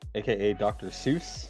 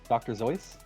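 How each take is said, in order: First: The name begins with an s sound. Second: The name begins with a z sound. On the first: This is the common pronunciation. The speaker calls it wrong. "people don't know how to pronounce his name correctly" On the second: This is the original German pronunciation. The speaker calls it right. "The way you pronounce that word is Zeus"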